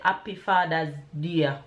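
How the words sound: It is said with a Jamaican accent. The speaker calls it right. "In Jamaica, we would say"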